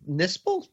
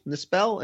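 First: Nispel with a weak second syllable, like NIS-pul; unstressed ending. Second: Nispel with a clear second syllable, like nis-PELL; full-vowel ending. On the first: Host asks co-hosts how to say Nispel, trying it as NIS-pul. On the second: Host offers co-hosts another Nispel, ending in a clear PELL. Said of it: "I would go with Nispel". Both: Shown as a demonstration.

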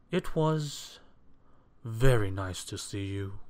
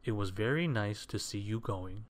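First: Louder, measured, forced courtesy; polite. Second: Understated, unforced aside; private thought. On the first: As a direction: say the pleasantry with strained politeness. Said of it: "replied Mister Fussy politely". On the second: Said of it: "what he was thinking was". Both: A narrator's reading.

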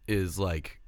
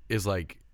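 Both takes have the same delivery.

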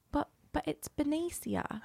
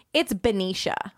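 First: Small, high, slow "Benicia" as beh-NEE-see-ah; confused kid insisting on "Benicia" with an s sound; Spanish-style Benicia. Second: "Benicia" said as buh-NEE-shuh, slowly; retold kid's correction, "Benicia" ending in "sha"; local pronunciation of Benicia. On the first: Retold or imitated. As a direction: softly protest with "see-ah" ending "Benicia". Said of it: "I would say Benicia". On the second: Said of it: "this little kid turned to me one day and goes".

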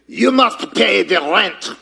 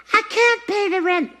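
First: Mock villain demanding rent; hammed-up melodrama villain; sneering panto villain. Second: High helpless damsel voice; damsel in distress. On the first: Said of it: "This is supposed to be a mustache". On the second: Acted. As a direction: wail it like a melodrama heroine. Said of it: "This is a hair bow".

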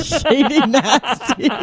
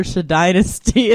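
First: Shady Nasty said SHAY-dee NASS-tee; drawn-out Shady Nasty as two plain English words; split into two words. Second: Shadynasty said shuh-DYE-nuh-stee, laughing; run together as one name. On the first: Revealing a TV club's misreading, Shady Nasty as SHAY-dee NASS-tee. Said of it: "named this club after Shadynasty". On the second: Explaining a TV club's misread name, Shadynasty as shuh-DYE-nuh-stee. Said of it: "it's a Shady Nasty". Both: Retold or imitated.

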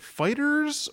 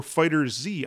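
First: "Fighters" said as one plain plural word. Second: "Fighter Z" with Z named as a letter, "zee"; separate letter Z. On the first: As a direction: say "Fighters" with the final s run straight on. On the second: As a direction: say "Fighter Z" slowly, ending on a spoken "zee". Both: Retold or imitated. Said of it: "confirmed how to pronounce it".

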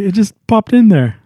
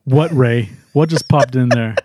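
First: Higher-pitched, sheepish excuse; Ray. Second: Stern questioning. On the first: Ray admitting to the team what he thought of, sheepish. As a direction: confess it in a raised voice. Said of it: "and you see Ray". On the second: Teammate questioning Ray about his thought, dryly stern. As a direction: drop the voice and press for the answer. Teammate answers Ray's confession. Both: Retold or imitated.

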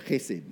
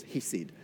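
First: "chesed" with a throat-scraped ch; throaty Hebrew pronunciation. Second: Said in the usual way. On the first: Shown as a demonstration. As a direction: start "chesed" with a guttural rasp, not a plain h. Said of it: "correctly you'd say it". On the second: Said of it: "or correctly you'd say it".

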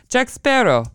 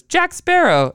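First: High-pitched imitated Italian accent. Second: High, loud mock recognition; imitated exclamation. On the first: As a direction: say it like an Italian policeman. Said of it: "with the Italian accent says". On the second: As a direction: call out the name like the guard. Imitates security guard's exclamation.

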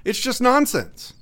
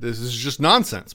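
First: "nonsense" drawn out, higher and slower; emphatic nonsense. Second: Said in the usual way. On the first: Real, not acted. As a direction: lean hard on "nonsense", pitch up.

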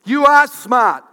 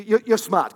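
First: "are" punched very loud and higher; emphatic insistence. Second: Said in the usual way. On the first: Real, not acted. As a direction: belt out "You are smart" to the audience. Repeats louder to the audience.

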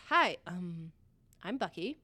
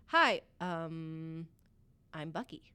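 First: Tongue-tied, shy hello; awkward shy greeting. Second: Quiet nervous mumble; tongue-tied, shy hello; awkward shy greeting. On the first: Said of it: "So he says". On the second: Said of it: "all I could get out of my mouth is". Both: Retold or imitated.

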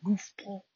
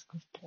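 First: Put-on New Jersey accent. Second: Said in the usual way. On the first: Imitating her boyfriend from New Jersey, New Jersey accent. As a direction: say GOOFBALL like someone from New Jersey. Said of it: "my boyfriend's from New Jersey". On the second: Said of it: "when he says goofball".

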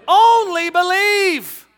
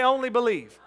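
First: Only believe shouted high and slow, Only stretched; preaching shout. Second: Said in the usual way. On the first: Shown as a demonstration. Preacher echoing the congregation, loud and drawn out. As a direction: ring out Only believe with full force. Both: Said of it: "everybody say".

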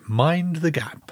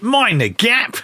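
First: Slow, soft, reserved announcer; stiff upper lip. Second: High, rough-and-ready platform yelp; mock announcer. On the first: Acted. Co-host imitating the recorded announcer, stiff upper lip. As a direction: say it slowly and quietly, all British reserve. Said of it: "a very stiff upper lip kind of fellow". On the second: Co-host guessing how the announcer sounded, high mock voice. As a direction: throw it out high, as a joke alternative. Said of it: "Was it "Mind the gap"?".

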